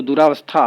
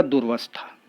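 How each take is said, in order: First: दुरावस्था with long aa, 'du-raa-vastha'; wrong form. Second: दुर्वस्था as 'dur-vastha', no long aa; corrected form. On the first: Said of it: "अशुद्ध है". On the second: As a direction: go from r straight to v in दुर्वस्था. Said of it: "शुद्ध होगा". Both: Shown as a demonstration.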